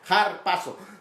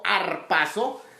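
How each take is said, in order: First: The word begins with a harsh J-like sound. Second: The word begins directly with a vowel. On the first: The speaker calls it right. "sino como jar, como J" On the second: The speaker calls it wrong. "no como arpazo"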